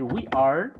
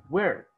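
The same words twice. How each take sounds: First: Said in the usual way. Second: "we're" as one falling syllable; forma abreviada. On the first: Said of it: "en vez de decir". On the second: Shown as a demonstration. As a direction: run we and are together into "we're". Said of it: "se dice". ("we're" contraído en una sílaba)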